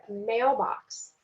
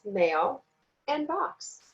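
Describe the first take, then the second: First: Said in the usual way. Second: "mail" and "box" as two separate pieces; split into syllables. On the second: Shown as a demonstration. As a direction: pause between "mail" and "box" to show the parts. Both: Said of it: "word has two syllables".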